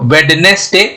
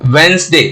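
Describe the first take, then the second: First: The middle d sound is clearly pronounced. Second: The middle d sound is left out. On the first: The speaker calls it wrong. "वेडनेसडे नहीं बोलेंगे" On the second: The speaker calls it right. "क्या हो जाएगा वेंसडे"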